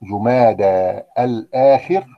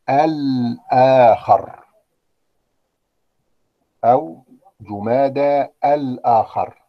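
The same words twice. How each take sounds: First: الآخر said slowly as the correct form; slow, careful جمادى الآخر with the right ending. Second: الآخر said slowly as the wrong form; drawn-out الآخر, marked as the error; slow demo of the wrong جمادى الآخر. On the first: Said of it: "أمال النطق الصحيح إيه؟". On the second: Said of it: "طبعًا غلط". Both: Shown as a demonstration.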